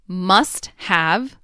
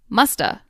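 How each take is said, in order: First: The word 'have' is said in full. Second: The word 'have' shrinks to a schwa sound. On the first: "Must have becomes" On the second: "becomes musta"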